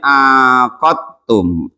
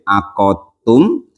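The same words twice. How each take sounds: First: The first vowel is lengthened, the q single. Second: The q sound is single and the vowels short. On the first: "ainnya dipanjangin" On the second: "dengan tanpa tasjid"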